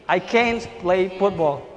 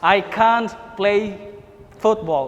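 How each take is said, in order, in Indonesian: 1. Can't diucapkan dengan aksen Amerika. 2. Can't diucapkan dengan aksen Inggris. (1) "Tapi kalau Amerika can't" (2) "Kalau British ini bacanya can't"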